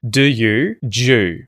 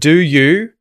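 First: The words merge into one syllable with oo. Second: Both words are said fully and separately. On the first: "d and the ye merge, and you're going to hear J" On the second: "instead of do you"

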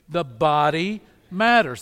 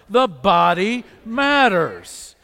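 First: It is said at a normal, moderate volume. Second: It is said loudly and with great energy.

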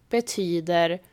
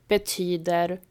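Both takes have the same delivery.

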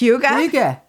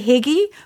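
First: The word sounds like 'hoo-ga'. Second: The word sounds like 'higgy'. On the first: The speaker calls it right. "but it's Hygge" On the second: The speaker calls it wrong. "that you want to say Higgy"

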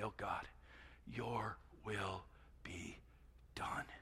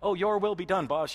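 First: It is said in a sincere, earnest tone. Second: It is said in an insincere, sarcastic tone.

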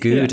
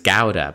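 First: The first syllable sounds like 'goo'. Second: The first syllable sounds like 'gow'. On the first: The speaker calls it wrong. "I'd been saying gouda" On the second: The speaker calls it right. "apparently it's gouda"

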